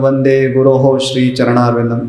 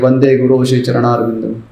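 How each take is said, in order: First: An extra 'ho' syllable follows guru. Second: Guru runs straight into shri with nothing added. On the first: "कई कई जगह तो वंदे गुरु हो श्री चरणारविंदम ऐसा भी बोलते हैं" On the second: "या तो skip करते हैं"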